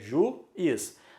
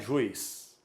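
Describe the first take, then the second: First: The u and i are in separate syllables. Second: The u and i glide into one syllable. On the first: The speaker calls it right. "eu pronuncio em sílabas diferentes. É juiz" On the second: The speaker calls it wrong. "não é juiz"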